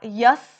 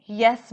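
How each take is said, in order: First: "यस" said with an open 'uh' vowel, like 'yus'; yanlış telaffuz. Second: "यस" said with an 'eh' vowel, as 'yes'; correct pronunciation. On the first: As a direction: mispronounce "यस" as 'yus', stressed. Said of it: "नहीं बोलोगे". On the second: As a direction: pronounce "यस" clearly as English 'yes'. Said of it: "बोलोगे". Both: Shown as a demonstration.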